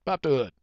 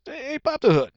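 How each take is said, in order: First: Said in the usual way. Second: High-pitched eager request. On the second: Acted. Shopper delighted by new car, high eager request. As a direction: call it out eagerly, pitched right up.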